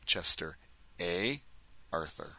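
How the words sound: The name is said in a Canadian accent.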